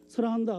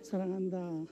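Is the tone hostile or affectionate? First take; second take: hostile; affectionate. First: It is said in a hostile, challenging tone. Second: It is said in a warm, affectionate tone.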